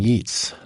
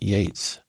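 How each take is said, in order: First: The vowel sounds like the one in 'beets'. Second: The vowel sounds like the one in 'gates'. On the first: It follows the spelling. The speaker calls it wrong. "I pronounce his name Yeats" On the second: It is the accepted pronunciation. The speaker calls it right. "not Yates"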